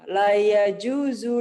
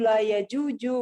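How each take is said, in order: First: The last word has a z sound. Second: The last word has a j sound.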